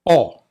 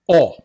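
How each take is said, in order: Both takes have the same delivery.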